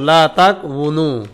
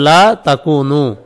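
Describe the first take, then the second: First: A separate w sound follows the k. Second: The k runs straight into a long u. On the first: This is the word's underlying original form. "শব্দের মূল ছিল লা তাকউনু" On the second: This is how the word is actually pronounced. "উচ্চারণ কি হবে লা তাকুনু"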